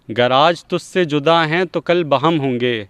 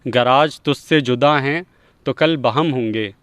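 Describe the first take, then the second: No difference in how they are said.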